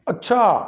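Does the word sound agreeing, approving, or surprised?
surprised. It is said in a surprised, astonished tone. The listener is surprised by what was said. "ये है हैरानी की तरफ लेके जाने वाला काम"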